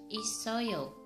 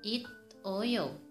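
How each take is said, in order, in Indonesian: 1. Bunyi s yang menyambung lancar ke oyo. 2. Bunyi t dengan jeda sebelum oyo. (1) "Yang betul pengucapannya dibaca isoyo" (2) "tapi salah"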